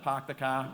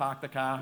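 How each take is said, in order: First: It is said in a Boston accent. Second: It is said in a Boston accent.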